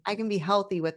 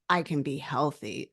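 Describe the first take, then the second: First: It sounds light and playful. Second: It sounds heavy and reluctant.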